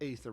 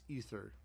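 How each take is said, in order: First: The first vowel sounds like 'ay' in 'say'. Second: The first vowel sounds like 'ee' in 'see'. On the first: The speaker calls it wrong. "most people mispronounce it as a- aether" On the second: The speaker calls it right. "but it's ether most times"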